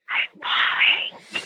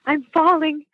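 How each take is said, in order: First: It is said in a whisper. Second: It is said in a normal voice.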